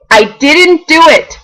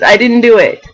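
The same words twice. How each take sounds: First: I didn't do it, slow and higher with weight on "didn't"; emphatic denial. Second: Said in the usual way. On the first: Real, not acted. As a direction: lean hard on "didn't", drawn out. Proudly insisting she resisted candy.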